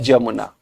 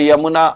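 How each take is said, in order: First: The name begins with a J sound. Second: The name begins with a Y sound. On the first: This is a local regional pronunciation. "उस accent के change होने के कारण कई जगह लोग यमुना को जमुना भी कहते" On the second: This is the standard pronunciation. "The यमुना आप कह सकते हैं इसको"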